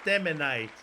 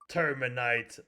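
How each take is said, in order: First: The name starts with tem, without r. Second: The name starts with the word term. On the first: The speaker calls it right. "no, it's Teminite" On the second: The speaker calls it wrong. "so many people did that"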